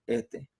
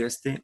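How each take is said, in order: First: "este" with the s breathed out as "ehte"; dropped s Ecuador style. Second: Said in the usual way. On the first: Shown as a demonstration. Teacher showing the class the Ecuadorian aspirated s in "este". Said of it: "decimos este". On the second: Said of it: "En vez de decir este".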